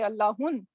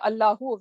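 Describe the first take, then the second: First: The word ends in an added n sound. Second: The word ends in a plain u vowel. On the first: The speaker calls it wrong. "we do not say Allahun" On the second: The speaker calls it right. "we say Allahu"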